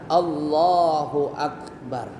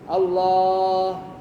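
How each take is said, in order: First: The final word 'Akbar' is clearly pronounced. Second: The final word 'Akbar' is dropped or inaudible. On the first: The speaker calls it right. "bacanya harus sempurna" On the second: The speaker calls it wrong. "Akbarnya nggak ada"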